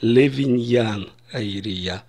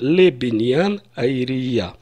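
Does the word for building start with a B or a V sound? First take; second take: V; B. First: The word for building starts with a V sound. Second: The word for building starts with a B sound. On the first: This is formal high style. "в формальном иврите" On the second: This is everyday speech. "я скажу в обычной речи"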